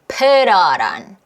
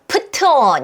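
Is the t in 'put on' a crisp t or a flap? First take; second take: flap; crisp t. First: The t becomes a soft, relaxed flap sound. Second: The t is a crisp, effortful t sound. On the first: The speaker calls it right. "릴 소리를 내서 편하게" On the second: The speaker calls it wrong. "put on 이렇게 힘들게 안 하고요"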